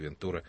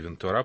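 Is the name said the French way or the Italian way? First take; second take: Italian; French. First: The name is said the Italian way. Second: The name is said the French way. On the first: "по-итальянски Вентура" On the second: "По-французски Вентура"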